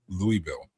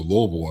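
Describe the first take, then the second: First: The name is said with a French pronunciation. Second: The name is said with an American pronunciation. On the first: This is the technically correct form of the name. The speaker calls it wrong. "which is technically what it would be" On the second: This is the local name of the city. The speaker calls it right. "you can't even go to Louisville"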